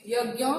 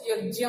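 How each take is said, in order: First: यज्ञ with 'gy', 'yag-gya'; gy pronunciation. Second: यज्ञ with a 'j' sound, 'yo-jya'; variant pronunciation. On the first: Teacher giving one way people say it, gy pronunciation. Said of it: "कुछ लोग इसको उच्चारण". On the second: Teacher quoting how many people say it, variant pronunciation. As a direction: turn the ज्ञ of यज्ञ into 'jy'. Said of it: "कई लोग इसको यज्ञ बोलते हैं". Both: Shown as a demonstration.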